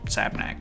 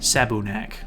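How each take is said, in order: First: No vowel is said after 'sab'. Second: A short u vowel is said after 'sab'. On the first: "in Japanese they don't really pronounce the U's, so it's just Sabnak" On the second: "there is a U in it"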